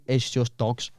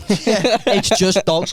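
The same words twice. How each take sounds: First: Said in the usual way. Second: Laughing, higher and drawn out; laughing repeat. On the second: Real, not acted. Laughing as he repeats his feed is all dogs. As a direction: laugh the line again slowly.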